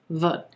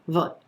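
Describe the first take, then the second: First: The vowel is clipped and short. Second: The same.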